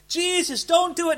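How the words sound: It is said in a warm, earnest voice.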